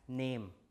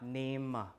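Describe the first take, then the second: First: The word ends without a final weak vowel. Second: The word ends with a final weak vowel. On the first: The speaker calls it right. "the schwa is gone also. So you pronounce it as name" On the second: The speaker calls it wrong. "not name"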